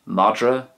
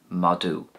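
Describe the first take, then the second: First: It is said the Munster way. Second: It is said the Ulster way. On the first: "So Munster" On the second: "and Ulster"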